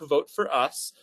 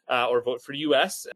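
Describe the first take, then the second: First: The last word is said as one word, "us". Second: The last word is said as letters, "U-S". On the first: It refers to all of us together. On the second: It refers to the country.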